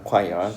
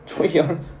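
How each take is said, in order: First: The word begins with a 'kw' sound. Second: The word begins with a 'ch' sound. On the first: The speaker calls it right. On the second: The speaker calls it wrong.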